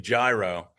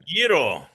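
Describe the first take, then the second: First: The word gets an American pronunciation. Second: The word gets a Greek pronunciation. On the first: "to the chagrin of Greeks all over the the world uh, when they hear me say gyro" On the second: "the way the Greeks would say the sandwich"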